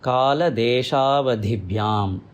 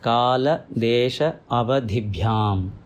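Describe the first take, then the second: First: The words run together with merged vowels. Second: The words are said apart with breaks between them.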